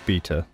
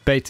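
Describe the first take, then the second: First: The word has a British pronunciation. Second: The word has an American pronunciation. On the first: The speaker calls it right. "but it's Beta" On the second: The speaker calls it wrong. "Beta is the Americanized pronunciation"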